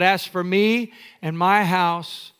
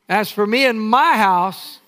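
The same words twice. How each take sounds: First: It is said plainly, without swagger. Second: It is said boldly, with swagger.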